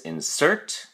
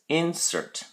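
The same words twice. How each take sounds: First: The stress is on the second syllable. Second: The stress is on the first syllable. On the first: It is the verb: to put something in. "The verb form is insert" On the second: It is the noun: the thing put in. "having the stress or emphasis placed on the first syllable"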